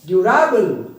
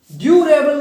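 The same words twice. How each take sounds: First: durable with RA punched loud; durable said du-RA-bal, loud middle syllable; stress on middle syllable. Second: durable with DU high and loud; durable said DU-ra-bal, high and forceful; stress on first syllable. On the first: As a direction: hit the RA in durable. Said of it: "अपनी आवाज़ को stress देना है". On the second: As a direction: wrongly punch the DU of durable. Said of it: "नहीं". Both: Shown as a demonstration.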